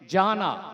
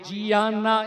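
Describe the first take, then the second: First: The name begins with a single 'jah' sound. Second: The name begins with a separate 'jee-ah' sound. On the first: The speaker calls it right. "ஜானா என்று அழைக்க வேண்டும்" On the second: The speaker calls it wrong. "ஜியானா என்று உச்சரிக்க கூடாது"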